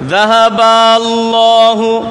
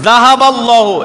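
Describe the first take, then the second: First: The vowel after 'ba' is drawn out. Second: The vowel after 'ba' is short. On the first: Two of them went away. The speaker calls it wrong. "আরামসে আপনি টান দিয়ে চলে যাচ্ছেন" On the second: God took it away. The speaker calls it right. "এই বাতে টান নেই"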